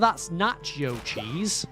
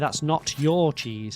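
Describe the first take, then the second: First: The words 'not your' blend into 'nacho'. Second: The words 'not your' are said clearly apart. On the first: The speaker calls it wrong. "You don't say, oh, that's nacho cheese" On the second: The speaker calls it right. "You say, that's not your cheese"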